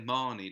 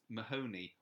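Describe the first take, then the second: First: The name has two syllables. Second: The name has three syllables. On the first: "some people say Marnie" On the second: "some people say it as it is"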